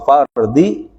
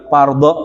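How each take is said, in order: First: The word ends with an i vowel. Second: The word ends with an a vowel. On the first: The word is in the genitive case. The speaker calls it right. "giliran fardhi harus dibaca kasrah juga" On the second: The word is in the accusative case. The speaker calls it wrong. "enggak boleh ... dibaca fardho gitu. Itu nasab namanya"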